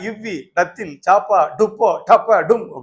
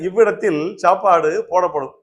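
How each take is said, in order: First: Breaks fall in the middle of the words. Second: The words are read as smooth, normal groups. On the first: The speaker calls it wrong. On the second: The speaker calls it right.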